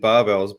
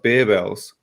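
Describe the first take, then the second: First: The first syllable sounds like 'bar'. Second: The first syllable sounds like 'bear'. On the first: This is how the speaker has always said it. "I've always just said barbells" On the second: This is how the owners say the name. "which I believe is pronounced bear bells"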